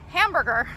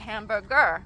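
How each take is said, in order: First: The stress is on the first syllable. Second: The stress is on the last syllable. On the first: This is the native English way. "So hamburger is how we say it" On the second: This is the Thai loanword way. "Thai say hamburger"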